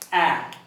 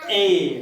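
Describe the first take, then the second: First: The letter is said as its short sound. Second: The letter is said as its name, 'ay'. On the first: This is the sound the letter makes in words. "But how do we pronounce it?" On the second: This names the letter. "what is this? A, right?"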